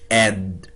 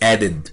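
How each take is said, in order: First: The d sound is pronounced once. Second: The d sound is pronounced twice. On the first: The speaker calls it right. "We have to say it add" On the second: The speaker calls it wrong. "No, we cannot say it like that"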